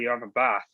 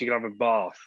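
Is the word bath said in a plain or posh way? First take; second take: plain; posh. First: The word bath is said in a plain way. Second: The word bath is said in a posh way. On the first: This is the ordinary way of saying it. "if you don't have a shower" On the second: The speaker is upper class. "If you're really posh"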